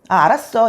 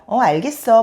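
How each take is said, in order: First: It is said in a blunt, masculine way. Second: It is said in a soft, feminine way.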